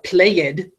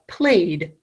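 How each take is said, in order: First: The ending is said as a separate 'ed' syllable. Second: The ending is said as a short 'd' sound. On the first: The speaker calls it wrong. "I don't say the dog played the toy. That sounds weird" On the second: The speaker calls it right. "do you notice it's making a duh sound?"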